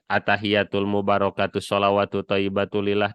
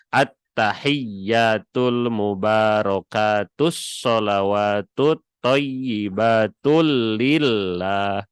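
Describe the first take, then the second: First: The doubled consonants are said short, not held. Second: The doubled consonants are held long and clearly. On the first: The speaker calls it wrong. "ini teh tidak apik dalam tasydid teh" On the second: The speaker calls it right. "Yang bagus mah bagaimana diapikan khususnya di dalam tasydid"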